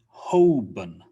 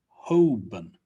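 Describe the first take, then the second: First: The L sound is left out of the name. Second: The same.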